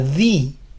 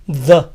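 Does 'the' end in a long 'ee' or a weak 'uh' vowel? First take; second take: long ee; weak uh. First: It ends in a long, clear 'ee' vowel. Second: It ends in a short, weak 'uh' vowel. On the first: The next word begins with a vowel sound. "se pronuncia di, cuando este artículo precede a una palabra que empieza con sonido de vocal" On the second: The next word begins with a consonant sound. "la A es algo débil, así"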